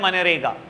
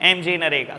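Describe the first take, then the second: First: The whole name is blended into one word. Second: The first letters are spelled out separately. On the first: The speaker calls it right. "सब बोलते हैं मनरेगा" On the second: The speaker calls it wrong. "कोई नहीं बोलता बेटा ऐसे एमजी नरेगा"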